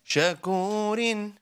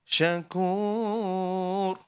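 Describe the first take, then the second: First: The word ends with a vowel plus n. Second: The word ends on a silent consonant. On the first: The reciter continues without stopping. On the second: The reciter stops at this word.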